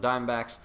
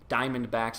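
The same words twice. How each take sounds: First: The word is slurred and not clearly articulated. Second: The word is articulated carefully and distinctly. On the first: The speaker calls it wrong. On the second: The speaker calls it right.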